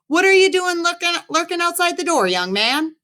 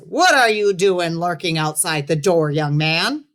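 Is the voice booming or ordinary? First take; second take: ordinary; booming. First: The voice is ordinary, not loud or booming. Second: The voice is big, deep and booming.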